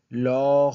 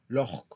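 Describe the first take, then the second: First: The word is drawn out slowly. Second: The word is said quickly. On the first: The speaker calls it wrong. "No tengo que decir log" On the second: The speaker calls it right. "yo lo digo rápido"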